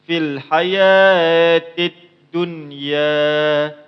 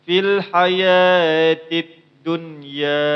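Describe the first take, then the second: No difference in how they are said.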